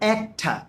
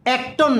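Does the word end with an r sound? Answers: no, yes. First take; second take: no; yes. First: The word ends in an uh vowel, no r. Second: The word ends with a clear r sound. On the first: The speaker calls it right. "বলবেন একটা" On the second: The speaker calls it wrong. "অ্যাক্টর না"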